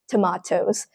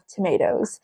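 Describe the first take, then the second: First: It is said with a British pronunciation. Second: It is said with an American pronunciation. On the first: "in British English" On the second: "In American English"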